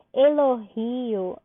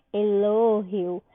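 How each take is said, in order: First: Elogio drawn out on GI, e-lo-GI-o; Portuguese stress. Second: Elogio stressed on LO, e-LÓ-hio; slow elogio with weight on LO and h-like g; Spanish stress. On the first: Teacher contrasting languages for students, Elogio stressed on GI. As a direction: stretch the GI of Elogio slowly. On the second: Teacher showing what to say, elogio stressed on LO. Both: Shown as a demonstration. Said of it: "eu digo elogio".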